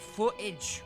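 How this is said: The word is pronounced with an English-sounding ending. "we say footage with an H sound at the end"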